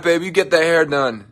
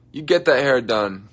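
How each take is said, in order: First: Cheering on. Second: Said in the usual way. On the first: Real, not acted.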